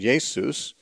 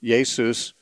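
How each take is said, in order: First: The name is said with Greek sounds. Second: The name is said with Greek sounds.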